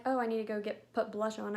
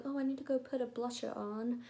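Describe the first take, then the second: First: Said in the usual way. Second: Lightly put-on European accent, softer; mock European accent, badly faked; a hint of a fake European accent. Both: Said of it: "I know that was the worst accent ever".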